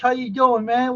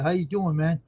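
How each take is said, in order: First: Much higher and louder how you doing; excited greeting. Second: Said in the usual way. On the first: Real, not acted. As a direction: gush the hello at a friend.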